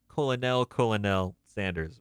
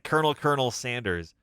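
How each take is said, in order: First: Colonel is sounded out as col-o-nel. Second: Colonel is said the usual way, like kernel.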